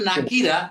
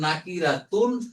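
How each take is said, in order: First: The word ends on a vowel, without -tun. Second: The word ends with the full -tun ending. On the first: This is how it is actually pronounced. "উচ্চারণ হবে নাকিরা" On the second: The full form is said to make learning easier. "শেখার সুবিধাতে পুরোটা উচ্চারণ করবো নাকিরাতুন"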